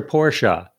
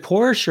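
First: "Porsche" said as POR-sha; Porsche in two syllables. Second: Said in the usual way. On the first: Retold or imitated. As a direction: say "Porsche" with an added "uh" at the end. Joke on two pronunciations.

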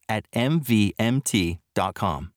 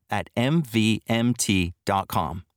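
The two takes are said the same way.

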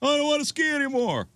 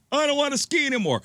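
First: Much higher whiny child voice, mocking; the boy refusing to ski again; whiny kid repeat. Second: Much higher whiny child, mocking; a hurt boy refusing to ski on; whiny kid. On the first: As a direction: whine it as the stubborn boy. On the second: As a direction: whimper it like a scared boy.

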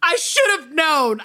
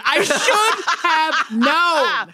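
First: Said in the usual way. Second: Drawn out slowly through laughter; slow laughing repeat. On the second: Real, not acted. Cohost laughing at her own punchline, slow and giggly. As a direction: stretch it out while cracking up.

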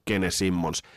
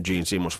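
First: "Gene Simmons" read as Finnish spelling, "Gene" as "ge-ne" with a hard g, a long mm in "Simmons"; slow, deliberate "Gene Simmons" with a hard g: "ge-ne sim-mons"; Finnish pronunciation. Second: "Gene Simmons" pronounced as an American would, "jeen simons"; English pronunciation. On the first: Podcaster jokingly correcting the name to a slow Finnish "ge-ne sim-mons". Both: Shown as a demonstration. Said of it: "niin kuin se lausutaan".

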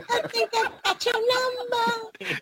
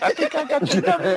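First: Squeaky laughing mimic; high laughing echo. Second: Chuckling through it; laughing while talking. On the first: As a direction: repeat it high and slow while laughing. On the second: Retold or imitated. First take.

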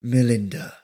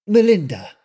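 First: Calvin repeating it. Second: Melinda giving her name. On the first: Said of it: "he repeated". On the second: Melinda tells Calvin her name, higher and firm. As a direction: say your name plainly and firmly. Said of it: "she told him". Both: Acted.

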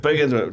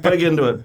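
First: Said in the usual way. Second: Laughing. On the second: Real, not acted. Jokingly repeats his boast.

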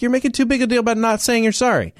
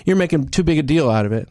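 First: High, fast retort; indignant comeback. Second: Said in the usual way. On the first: Retold or imitated. Turning the seatmate's words back on him, indignant. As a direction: throw the words back, quick and pitched up.

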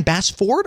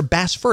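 First: "Bassford" with a full, clear FORD; full pronunciation. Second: "Bassford" ending in a weak "ferd"; reduced pronunciation. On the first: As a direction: say "Bassford" with both syllables sounded out. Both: Retold or imitated. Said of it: "Am I saying his name right?".

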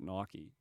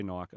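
First: Nike said "NY-kee"; two-syllable Nike. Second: Nike said "Nyke"; one-syllable Nike. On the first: Host answers how they have always said it, Nike as "NY-kee". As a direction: say Nike with an -ee ending. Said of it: "I've always called it Nike". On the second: Host admits their own habit, Nike as "Nyke". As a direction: say Nike to rhyme with bike, no -ee. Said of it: "I probably still say Nike". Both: Shown as a demonstration.

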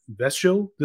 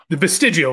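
First: "vestigial" garbled into a clipped vest-ul with a rising tune; fumbled word. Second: "vestigial" said in full as ves-TIJ-ee-al; corrected word. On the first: Podcaster groping for a word, "vestigial" garbled as vest-ul. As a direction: stumble over "vestigial" as vest-ul, unsure. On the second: Podcaster finally getting the word out, "vestigial" said in full. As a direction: land "vestigial" properly, every syllable. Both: Shown as a demonstration. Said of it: "there we go".

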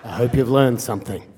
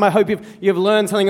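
First: Low-pitched serious father; stern dad. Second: Said in the usual way. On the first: Retold or imitated. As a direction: imitate a stern dad's low lecturing. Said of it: "this very serious, stern". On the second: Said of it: "Dad said those sort of things".

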